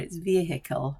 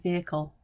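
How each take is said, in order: First: The h sound in the middle is pronounced. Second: The h sound in the middle is silent. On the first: "In America, it's vehicle, I hear" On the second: "We don't pronounce the H's over here in the U K"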